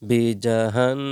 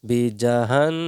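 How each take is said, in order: No difference in how they are said.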